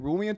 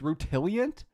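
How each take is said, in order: First: The word is said without a T sound. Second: The word is said with a T sound. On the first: The speaker calls it wrong. "I've been saying it wrong this whole time" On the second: The speaker calls it right. "There's a T in that word?"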